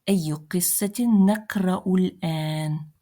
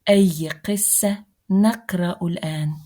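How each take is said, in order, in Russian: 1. Конечные гласные окончания слов произносятся. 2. Конечные гласные окончания слов опускаются. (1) "Если прочитать со всеми окончаниями" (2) "Если сукунировать все окончания, то будет звучать так"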